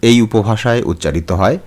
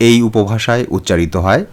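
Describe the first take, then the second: Both takes have the same delivery.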